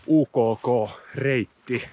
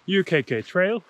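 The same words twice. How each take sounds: First: U K K Reitti with Finnish letter names oo, koo, koo and rolled Reitti; Finnish pronunciation. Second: U K K said as English letters you, kay, kay. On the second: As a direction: spell U K K the English way, then Trail. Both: Shown as a demonstration. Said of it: "or as it's known in Finnish".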